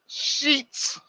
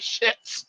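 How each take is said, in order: First: The name has a long 'ee' vowel. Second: The name has a short 'i' vowel. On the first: This is the family's own pronunciation. The speaker calls it right. "It's Sheets" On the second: This is a joking nickname used by others. The speaker calls it wrong. "we all called them shits"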